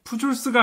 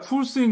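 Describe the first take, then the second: First: The second syllable starts with a j sound. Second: The second syllable starts with an h sound. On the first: The speaker calls it wrong. "아니라" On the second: The speaker calls it right. "제이는 스페인어로 H 발음이 나기 때문에"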